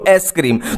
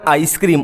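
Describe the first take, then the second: First: The first vowel sounds like 'eh'. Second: The first vowel sounds like 'eye'. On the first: This form is a memory hook for aspartame. "उसको ऐसे बोलो एसक्रीम" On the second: This is the usual way to say it. "जैसे हम बोलते हैं ना आइसक्रीम"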